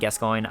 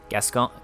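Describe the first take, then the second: First: The name ends with an 'oyn' sound. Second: The name ends with a plain 'on' sound. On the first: This is how it is pronounced in England. "in England that's how you pronounce it" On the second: This is how it sounds within the game. "it sounds like Gascon to me"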